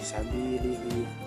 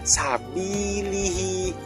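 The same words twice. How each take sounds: First: The i vowel is said weakly and unclearly. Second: The i vowel is said clearly with spread lips. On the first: The speaker calls it wrong. "membacanya biasa" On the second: The speaker calls it right. "harusnya kan bacanya kayak sabilihi"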